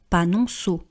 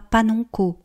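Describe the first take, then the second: First: The last syllable begins with a soft s sound. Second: The last syllable begins with a hard k sound. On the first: The speaker calls it right. "on dit panonceau" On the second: The speaker calls it wrong. "on ne dit pas panonco"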